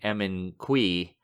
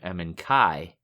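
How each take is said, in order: First: The last name is pronounced like 'kui'. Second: The last name is pronounced like 'kai'. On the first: This is the other host's version of the name. "You've been saying Emin Kui" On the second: This is the speaker's own version of the name. "in my head I've been calling him Emin Kai"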